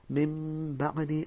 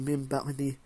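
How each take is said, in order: First: The nasal sound before the b is held longer. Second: The nasal sound before the b is cut short. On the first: The speaker calls it right. "and you stretch it a bit" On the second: The speaker calls it wrong. "You can't just say"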